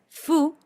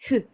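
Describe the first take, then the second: First: It starts with a firm Spanish-style f sound. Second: It starts with a soft, breathy blown sound. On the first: The speaker calls it wrong. "no es la F de nuestro español" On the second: The speaker calls it right. "una mezcla entre la F del español y la H del inglés"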